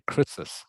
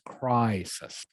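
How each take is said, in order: First: The first vowel is not the 'eye' sound. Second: The first vowel is the 'eye' sound. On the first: The speaker calls it wrong. "I think you said crisis" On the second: The speaker calls it right. "the I is pronounced crisis, like it is a Y"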